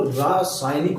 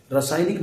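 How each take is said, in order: First: रासायनिक slowed, with long "raa"; correct long vowel. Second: रासायनिक starting with short "ra"; wrong short vowel. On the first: Teacher correcting students, रासायनिक with drawn-out "raa". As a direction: say रासायनिक as "raaa-saay-nik". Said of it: "वो रासायनिक होता है". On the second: Teacher rejecting the mistake, रासायनिक with short "ra". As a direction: say रासायनिक as "ra-saay-nik". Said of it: "रासायनिक नहीं". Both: Shown as a demonstration.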